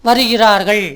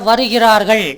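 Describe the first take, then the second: Both takes have the same delivery.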